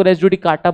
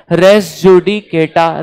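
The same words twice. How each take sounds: First: "res judicata" ending in KAA-ta; lower-pitched "res judicata", as "judi-KAA-ta"; pronounced KATA. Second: "res judicata" slowly, ending in KAY-ta; slow "res judicata", syllable by syllable, as "judi-KAY-ta"; pronounced KETA. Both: Shown as a demonstration. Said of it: "कई लोग res judicata बोलते हैं".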